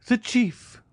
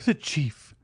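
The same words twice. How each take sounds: First: Far higher, the second call cracking upward; despairing cry, climbing. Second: Higher, reaching out in despair; despairing cry. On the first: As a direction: cry out again, pitch soaring in despair. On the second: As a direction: call for the chief, desperate. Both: Acted. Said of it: "he exclaimed".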